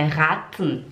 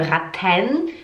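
First: Raten ending in T plus bare N, falling; silent E. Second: Raten with clear "ten", rising; wrong full ending. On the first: Teacher corrects the mistake, raten with swallowed ending. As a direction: drop the E at the end of raten. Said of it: "O E, a gente não pronuncia". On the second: Teacher shows learners the mistake, raten ending in full TEN. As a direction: pronounce the E fully at the end of raten. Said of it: "Não é". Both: Shown as a demonstration.

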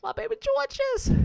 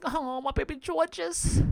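First: Put-on "My baby Georges" squealed very high; squealing coo. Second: Higher, slow cooing; cooing pity. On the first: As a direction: squeal it with pity. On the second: Retold or imitated. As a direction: coo over a nervous favourite. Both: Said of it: "I'm just like".

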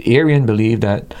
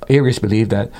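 First: "Arian" said as AIR-ee-un, ending in -an; "Arian" slipped out, AIR-ee-un, before the correction; slip of the name. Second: "Arius" said as AIR-ee-us, ending in -us; "Arius" corrected to AIR-ee-us; corrected name. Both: Real, not acted.

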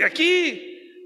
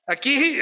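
First: Aquí pitched high and drawn out, ironic; stress on aquí. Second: Said in the usual way. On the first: Shown as a demonstration. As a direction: lean on the second aquí with a knowing lift. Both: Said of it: "estas cosas no pasan".

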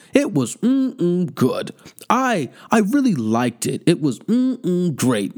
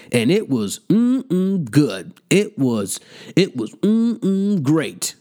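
First: Slow mocking relish, drawn out; mock savoring again. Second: Slow, drawn-out mock relish; mocking savoring. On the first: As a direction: stretch the mm-mm to ridicule him. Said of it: "who talks about pussy like that". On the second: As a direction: savor each mm-mm like food, teasingly. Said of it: "and you was like".

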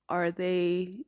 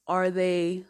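Both takes have the same delivery.

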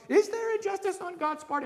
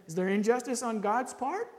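First: Much higher, pressing question; impassioned question. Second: Said in the usual way. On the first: Shown as a demonstration. Preacher asks the congregation, high and urgent. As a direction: throw the question up high, urging. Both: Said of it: "that question".

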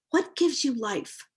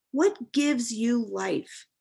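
First: Said in the usual way. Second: Slowed right down, each word weighed; slow reflective repeat. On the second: Shown as a demonstration. Asking herself slowly, pondering the question. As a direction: ask it again slowly, letting it sink in. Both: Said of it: "these questions came to me".

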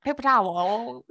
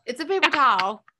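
First: TOWEL mockingly drawn out as tow-el; mocking pronunciation. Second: TOWEL as a quick "tal", pitched up; one-syllable towel. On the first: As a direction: slowly overdo both syllables of "towel". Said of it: "who goes". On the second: Shown as a demonstration. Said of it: "Not, not, who goes".

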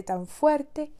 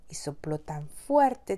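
First: "fuerte" said higher and louder, stretched; emphatic repeat. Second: Said in the usual way. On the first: A narrator's reading. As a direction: lean hard on "fuerte".

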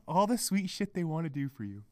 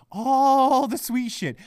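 First: Low, soft dismissive remark; subdued scorn. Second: Slow, stretched "All"; drawn-out sarcasm. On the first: Podcaster remarking on partners' sweet gestures, subdued scorn. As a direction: say it under the rant, softly. First, subdued take of the phrase. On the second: Podcaster repeating his complaint about sweet gestures, drawn-out sarcasm. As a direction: lean long and hard on "All". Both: Real, not acted.

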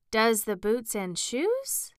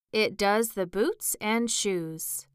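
First: Slow question with a high rise at the end; wondering echo, lifting on the last word. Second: Slow, weighty pronouncement; solemn, measured delivery. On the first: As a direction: repeat it slowly, puzzled and wondering. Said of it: "she repeated in a wondering tone". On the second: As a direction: state it slowly and gravely. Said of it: "the Gryphon replied very solemnly". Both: A narrator's reading.

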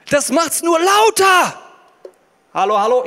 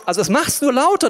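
First: Amplified loud voice. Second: Said in the usual way. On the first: Shown as a demonstration. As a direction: boom it out as if amplified. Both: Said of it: "ich verstärke mal kurz".

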